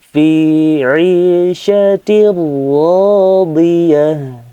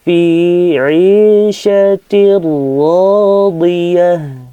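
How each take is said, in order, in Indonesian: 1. Bunyi n menyatu dengan r setelahnya. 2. Bunyi n menyatu dengan r setelahnya.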